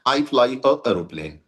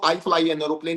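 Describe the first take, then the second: First: A jerky break comes before 'aeroplane'. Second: An n sound links smoothly into 'aeroplane'. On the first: The speaker calls it wrong. "इकट्ठा साथ बोलेंगे तो झटका लगेगा" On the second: The speaker calls it right. "ऐसे बोलो"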